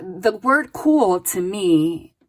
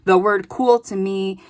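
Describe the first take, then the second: First: Slow down and lean on the word cool to muse on it; slow, drawn-out emphasis on cool. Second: Said in the usual way. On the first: Shown as a demonstration. Reader dwelling on a card word for the viewer, slow and deliberate. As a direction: drag out cool thoughtfully. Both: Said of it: "this is how they're having me interpret it".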